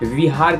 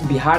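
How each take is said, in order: First: The name starts with a v sound. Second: The name starts with a b sound. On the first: This is the name used in ancient times. "विहार कहा जाता था" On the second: This is the name used today. "इसे बिहार नहीं"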